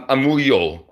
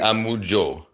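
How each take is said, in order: First: The middle consonant sounds like English y. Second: The middle consonant sounds like English j. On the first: This is the Spanish-style pronunciation. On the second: This is the Greek-style pronunciation. "and then Greek would be a mujo"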